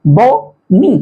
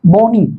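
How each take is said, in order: First: "बो", pause, "नी"; बो-नी with a clear gap; syllable by syllable. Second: Said in the usual way. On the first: Shown as a demonstration. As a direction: break बोनी into two separate beats. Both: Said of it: "डायसिलेबिक".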